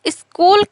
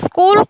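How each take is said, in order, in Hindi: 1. s ध्वनि से पहले एक स्वर जोड़ा जाता है। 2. शब्द सीधे s ध्वनि से शुरू होता है। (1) "उच्चारण दोष ... स्वरागम" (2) "स्कूल को"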